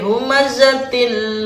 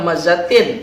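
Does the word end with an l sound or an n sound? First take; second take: l sound; n sound. First: The word ends with an l sound. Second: The word ends with an n sound. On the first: The speaker calls it right. "tapi humazatil lumazah" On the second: The speaker calls it wrong. "Tidak humazatin"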